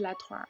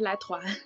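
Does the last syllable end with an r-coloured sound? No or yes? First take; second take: yes; no. First: The last syllable ends with an r-coloured sound. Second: The last syllable ends without an r-coloured sound. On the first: The speaker calls it wrong. "不是来团儿" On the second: The speaker calls it right. "是来团"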